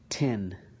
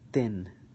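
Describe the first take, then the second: First: The t is released with a puff of air. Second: The t is released without a puff of air. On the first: "with the T" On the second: "with the ta"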